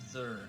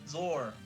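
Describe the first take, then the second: First: The final syllable has an 'er' vowel. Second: The final syllable has an 'or' vowel. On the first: The speaker calls it wrong. "not Zer" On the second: The speaker calls it right. "Bronzor, Zor, not Zer. ... There's an O"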